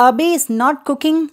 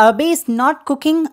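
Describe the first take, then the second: Both takes have the same delivery.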